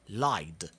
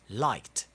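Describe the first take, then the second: First: The ending is pronounced as a d sound. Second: The ending is pronounced as a t sound. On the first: The speaker calls it wrong. "if you try to pronounce it as a D, you will find it a little bit more difficult" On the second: The speaker calls it right. "It's a lot easier to pronounce it as a T"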